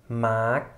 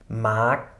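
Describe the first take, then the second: No difference in how they are said.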